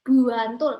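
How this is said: The initial B is heavy and drawn out. It sounds like a Javanese medok accent. "B kayak buantul, bantul itu kan kayak we B-nya lebih berat"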